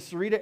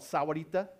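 First: The name is said shortened, with syllables dropped. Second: The name is said in full, every syllable. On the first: "Now I'm going to say Sarita the rest of the time" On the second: "I'm going to say it that way once"

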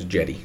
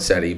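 First: The name begins with a J sound. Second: The name begins with an S sound. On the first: The speaker calls it right. "It's Jetty" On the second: The speaker calls it wrong. "It looks like Ceddy. I've said Ceddy, but I've been corrected"

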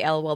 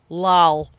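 First: It is spelled out as three separate letters. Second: It is pronounced as a single word. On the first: "They don't say LOL" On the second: "They pronounce an acronym"

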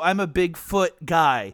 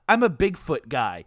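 First: Big and foot are said as two words. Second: Bigfoot is said as one name. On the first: The speaker seems to be into big feet. The speaker calls it wrong. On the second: The speaker is interested in the cryptid Bigfoot. The speaker calls it right.

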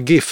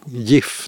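First: The first sound differs from the start of 'giffel'. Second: The first sound matches the start of 'giffel'. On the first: "Jag skulle nog säga GIF" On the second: "beställer jag en ostgiffel. Så egentligen kanske det borde heta GIF då"

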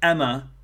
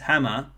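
First: The h sound at the start is dropped. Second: The h sound at the start is pronounced.

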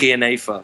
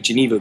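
First: The word starts with a throaty G sound. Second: The word is given its English pronunciation. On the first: "like you use the back of your throat" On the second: "the pronunciation in English would be Geneva"

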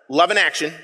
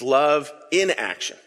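First: The words 'in action' run together as one word. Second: The words 'in' and 'action' are kept apart. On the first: Love is not acted upon. The speaker calls it wrong. "as in like a negation" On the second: Love is put into practice. The speaker calls it right. "It's love in action"

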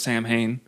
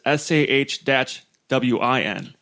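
First: It sounds like sam-hain, with an m sound. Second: It sounds like sow-in, with no m sound. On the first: The speaker calls it wrong. "I'm saying it like it looks and not like it's supposed to be" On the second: The speaker calls it right. "But it says pronounce it. It's Shawin"

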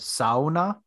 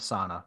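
First: The first syllable sounds like 'sow'. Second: The first syllable sounds like 'soo'. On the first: The speaker calls it right. "It's a sauna" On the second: The speaker calls it wrong. "not a sauna"

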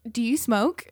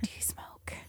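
First: It is spoken in a normal voice. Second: It is spoken in a whisper. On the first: It was asked openly in a message. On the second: It is asked secretly, as something illicit.

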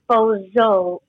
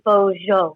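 First: The middle consonant is a z sound. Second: The middle consonant is a j sound. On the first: It is the clown's name. The speaker calls it wrong. "Not Bozo, like the clown" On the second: It is the dog's name. The speaker calls it right. "it's actually Bozo because there's a J in it"

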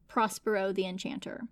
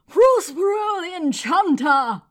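First: The name is said in a plain, flat way. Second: The name is said in a grand, showy way. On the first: The speaker calls it wrong. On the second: The speaker calls it right.

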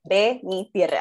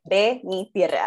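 First: The name is said with Spanish pronunciation. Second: The name is said with Spanish pronunciation.

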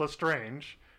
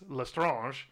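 First: The ending is said like English 'strange'. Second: The ending is said the French way. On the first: The speaker calls it wrong. "Not Lestrange" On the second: The speaker calls it right. "because no one would put "la" and then have an English word after it"

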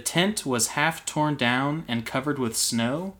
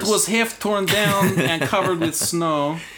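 First: It is read in the speaker's ordinary accent. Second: It is read in a put-on Russian accent.

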